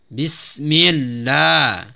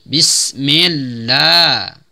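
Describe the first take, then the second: Both takes have the same delivery.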